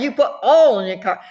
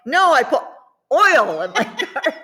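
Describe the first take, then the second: First: 'oil' said as 'all', insisting; Southern oil. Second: Higher, 'oil' stretched to OY-ul, laughing; exaggerated oil. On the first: Insisting that's what was said, 'oil' as 'all'. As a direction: keep 'oil' flat as 'all', no glide. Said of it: "that's what I said". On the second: Correcting the questioner, exaggerated 'oil' with OY-ul. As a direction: overdo the glide in 'oil', laughing. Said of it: "or we drop stuff". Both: Shown as a demonstration.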